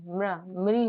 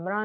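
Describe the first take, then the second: First: म्र, मृ said as a short mri, with no long aa; teacher models म्र, मृ as mri; correct mri sound. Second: म्रा said with a long open aa, as mraa; teacher shows the wrong म्रा, stretched to mraa; wrong mraa sound. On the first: Teacher showing students the right sound, मृ as mri. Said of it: "म्र, मृ होता है". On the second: Teacher warning students off the mistake, म्रा as mraa. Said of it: "म्रा नहीं होता". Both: Shown as a demonstration.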